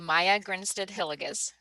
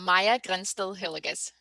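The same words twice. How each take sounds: First: The name is pronounced the English way. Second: The name is pronounced the Danish way. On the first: "in English, I would say" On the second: "in your proper native tongue"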